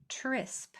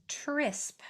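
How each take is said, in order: No difference in how they are said.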